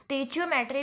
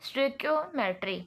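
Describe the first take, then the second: First: The word begins with 'stay-chee'. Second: The word begins with 'stoy-kee'. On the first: The speaker calls it wrong. "इसको कुछ लोग स्टेचियोमेट्री भी pronounce करते हैं" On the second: The speaker calls it right. "इसकी valid pronunciation है"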